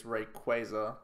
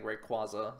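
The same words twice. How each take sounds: First: Rayquaza said ray-KWAY-zuh; correct pronunciation. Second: Rayquaza said ray-KWAH-zuh; habitual pronunciation. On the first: Streamer showing viewers the proper name, Rayquaza as ray-KWAY-zuh. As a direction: say Rayquaza with a long A, "kway" in the middle. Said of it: "the correct way to pronounce it". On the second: Streamer admitting an old habit, Rayquaza as ray-KWAH-zuh. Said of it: "I'm so used to saying". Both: Shown as a demonstration.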